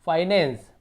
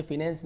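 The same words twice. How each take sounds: First: फाइनेंस with "fai" like fie, louder; taught pronunciation. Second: फिनेंस with short "fi" as in fin; quick demo of the mistaken फिनेंस; wrong pronunciation. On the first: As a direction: hit a clear "fai" opening in फाइनेंस. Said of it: "फाई पढ़ेंगे". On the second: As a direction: misread it as फिनेंस, "fi-nens". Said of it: "फिनेंस नहीं पढ़ेंगे". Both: Shown as a demonstration.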